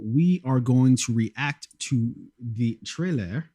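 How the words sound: It is spoken with a French accent.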